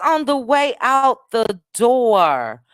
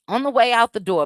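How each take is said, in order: First: Drawn-out announcement. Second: Said in the usual way. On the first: Real, not acted. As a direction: stretch it out to DOOR. Drawn-out sign-off announcement, then repeated.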